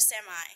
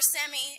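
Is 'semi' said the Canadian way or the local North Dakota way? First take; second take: local; Canadian. First: It is said with the local pronunciation. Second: It is said with a Canadian pronunciation. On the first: This is how the locals expected it. "instead of semi" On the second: This is how the newcomer said it. "or semi instead of"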